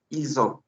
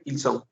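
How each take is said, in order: First: "ils ont" with a voiced z linking into ont; teacher shows ils ont, liaison buzzing like a Z; French ils ont. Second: "ils sont" with a hissed S before sont; teacher shows ils sont, sharp unvoiced S; French ils sont. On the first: Teacher models "ils ont" for Spanish-speaking students, liaison as a soft Z. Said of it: "Ellos han, decimos". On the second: Teacher contrasts "ils sont" for the class, crisp hissing S. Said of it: "Ellos tienen". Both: Shown as a demonstration.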